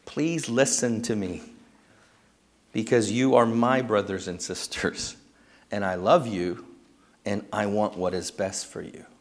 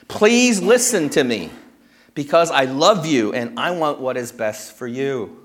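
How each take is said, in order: First: Quiet heartfelt plea to the congregation; tender personal appeal. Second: Paul's pleading appeal. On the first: Real, not acted. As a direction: lower and softer, sincere. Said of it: "Church family". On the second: Retold or imitated. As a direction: voice Paul begging his converts to listen. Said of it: "He makes this personal appeal".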